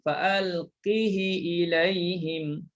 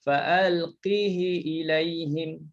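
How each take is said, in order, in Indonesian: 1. Vokal i pendek mengikuti bunyi h. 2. Vokal i pendek mengikuti bunyi h.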